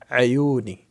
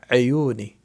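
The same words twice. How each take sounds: The two takes are said the same way.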